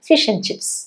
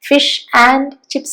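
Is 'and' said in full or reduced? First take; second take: reduced; full. First: The word 'and' is reduced to a short 'n'. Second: The word 'and' is said in full. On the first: The speaker calls it right. "അതുകൊണ്ടാണ് നമ്മൾ ആ വീക്ക് form use ചെയ്യുന്നത്" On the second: The speaker calls it wrong. "അല്ല"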